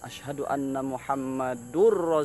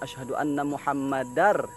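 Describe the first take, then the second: First: The vowel after Muhammad is a 'u' sound. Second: The vowel after Muhammad is an 'a' sound. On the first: The speaker calls it wrong. "Ada yang salah dalam baris" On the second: The speaker calls it right. "Sepatutnya asyhadu anna Muhammadar. Ya, fathatain bukan dhammatain"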